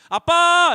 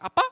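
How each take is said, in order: First: It sounds like a plain call for attention. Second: It sounds doubtful, checking identity.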